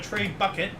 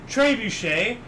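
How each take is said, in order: First: It is pronounced like 'tray bucket'. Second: It is pronounced like 'trebuchet'. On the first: The speaker calls it wrong. "uncultured swine in video games called it" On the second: The speaker calls it right. "it was a massive trebuchet"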